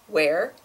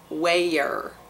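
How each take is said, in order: First: It is said as a single syllable. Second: It is stretched into almost two syllables. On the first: "the standard pronunciation is something like where" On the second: "in the Deep South, it turns into almost two syllables"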